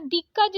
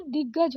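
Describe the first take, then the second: First: दिग्गज said as dikkaj; voiceless k in दिग्गज; wrong क for ग. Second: दिग्गज with doubled voiced g; correct double ग. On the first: Teacher showing the mistake, दिग्गज as dikkaj. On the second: Teacher correcting it, दिग्गज as diggaj. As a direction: hold the gg in दिग्गज. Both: Shown as a demonstration. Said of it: "दिग्गज नहीं दिग्गज".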